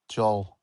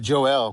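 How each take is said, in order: First: The name is said as one single syllable. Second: The name is said as two separate syllables. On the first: It is how people say it locally. "All all together" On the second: It shows how the name is spelled. "it lets you see how it's spelled"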